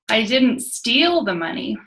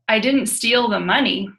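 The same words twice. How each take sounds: First: The stress is on the word steal. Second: The stress is on the word money.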